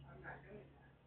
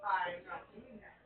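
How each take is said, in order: First: Very soft, low refusal under the breath; muttered refusal. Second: "I am not doing that" with stress on I and am, fuller voice; insist, spelling out each word; firm refusal. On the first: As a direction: say it to yourself, almost inaudible. Refusing bird's request. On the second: Refusal repeated firmly. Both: Real, not acted.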